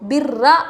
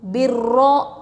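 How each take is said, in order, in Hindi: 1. r की आवाज़ हल्की और पतली बोली जाती है। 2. r की आवाज़ भारी और पूरे मुँह से बोली जाती है। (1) "ऐसा नहीं पढ़ेंगे" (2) "रॉ को मोटा ही पढ़ेंगे"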